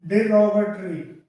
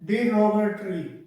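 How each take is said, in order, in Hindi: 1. पहला syllable 'dih' जैसा सुनाई देता है। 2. पहला सिलेबल 'dih' जैसा सुनाई देता है।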